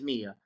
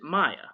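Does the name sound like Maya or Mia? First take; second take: Mia; Maya. First: The first vowel sounds like 'ee'. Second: The first vowel sounds like 'eye'. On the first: The speaker calls it right. "M I A is Mia" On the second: The speaker calls it wrong. "I made my wife pronounce it Maya"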